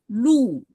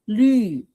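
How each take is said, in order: First: The vowel is a plain back 'oo' sound. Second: The vowel is a fronted, rounded 'yu' sound. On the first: The speaker calls it wrong. "It's not Lu. Lu is this shape" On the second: The speaker calls it right. "But Lü is Yu sound"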